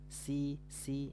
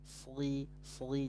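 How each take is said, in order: First: The s is light, with the tongue back lowered. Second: The s is heavy, with the tongue back raised. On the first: The speaker calls it wrong. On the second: The speaker calls it right.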